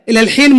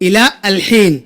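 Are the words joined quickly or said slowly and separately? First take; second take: joined; separate. First: Said quickly, with the words run together. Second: Said slowly, with each word kept separate. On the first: "जैसे जल्दी में बोला जाता है" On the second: "आराम से बोलोगे तो ऐसा होगा"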